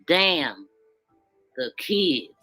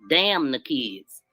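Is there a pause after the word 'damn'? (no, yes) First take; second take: yes; no. First: There is a break after the word damn. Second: It is said as one phrase without a pause. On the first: The speaker is worried about what happens to the kids. "when I'm gonna read it with the apostrophe" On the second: The speaker does not care about the kids. "The way that he wrote that"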